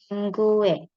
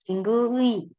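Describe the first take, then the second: First: The last syllable is pronounced "e". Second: The last syllable is pronounced "ui". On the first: It is the everyday reading. "kalau misal yang keseharian sering dipakainya pakai e" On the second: It is the formal reading. "Kalau formal biasanya akan 친구의"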